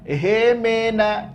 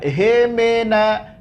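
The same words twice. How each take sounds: The two takes are said the same way.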